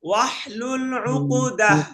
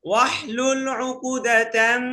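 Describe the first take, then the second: First: The word ends in an -ah sound. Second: The word ends in a nasal -tan sound. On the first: The reciter stops here for breath. "আমার এখানে থামতে হবে" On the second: The reciter carries on into the next word. "যদি আমি মিলাই বলি তাহলে কি উকুদাতাম গুণনা করতে হবে"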